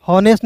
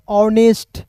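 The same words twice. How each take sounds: First: हॉनेस्ट with the H sounded; mispronunciation. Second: ऑनेस्ट with a silent H; correct pronunciation. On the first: Teacher showing learners the wrong guess, mispronunciation. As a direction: start हॉनेस्ट on an audible h. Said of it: "हॉनेस्ट नहीं पढ़ेंगे". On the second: Teacher modelling the word for learners, correct pronunciation. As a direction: start ऑनेस्ट straight on the vowel, no h. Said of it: "इसे पढ़ेंगे ऑनेस्ट". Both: Shown as a demonstration.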